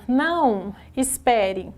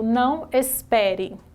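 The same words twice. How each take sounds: First: There is a pause after the first word. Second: There is no pause after the first word.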